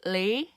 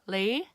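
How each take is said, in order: Both takes have the same delivery.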